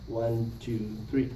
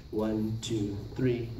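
The two takes are said the same way.

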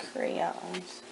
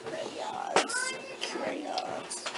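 First: Said in the usual way. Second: Whispered echo. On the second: Shown as a demonstration. Teacher echoing the child's choice, whispered. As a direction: whisper the word back high and light.

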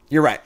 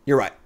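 No difference in how they are said.

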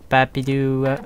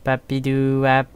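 No difference in how they are said.

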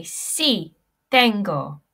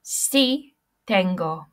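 First: Sí, tengo. said clearly, falling on tengo; Spanish pronunciation. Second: Careful model of Sí, tengo. to echo; Spanish pronunciation. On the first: Teacher models the answer for the class, clear. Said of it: "we say". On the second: Teacher models the answer again for repetition, clear. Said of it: "Everybody repeat after me". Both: Shown as a demonstration.

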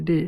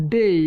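First: ডে with a single e, no i glide; ডে without the final i sound; simple e vowel. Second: ডেই drawn out with e gliding into i; ডেই with a clear final i sound; full "ei" glide. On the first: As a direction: say ডে short, ending on plain e. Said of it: "চাইলে কিন্তু আমরা ডেটাকেও বলতে পারি". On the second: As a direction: say ডেই as "dey-i", both vowels heard. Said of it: "তাহলে আমরা ব্যবহার করতে পারবো". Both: Shown as a demonstration.

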